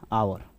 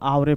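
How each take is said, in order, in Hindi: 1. अंतिम 'e' silent है, इसलिए सिर्फ एक सिलेबल बनता है। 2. अंतिम 'e' एक अलग सिलेबल की तरह बोला जाता है। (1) "जब जानेंगे तब क्या पढ़ेंगे जी" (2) "जब हम ओल्ड इंग्लिश को नहीं जानेंगे तो इसको आवरे पढ़ देंगे ना"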